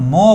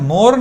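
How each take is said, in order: First: The final r sound is silent. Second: The final r sound is pronounced. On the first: The speaker calls it right. "মো বলবো" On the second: The speaker calls it wrong. "এখানে মোর না বলে"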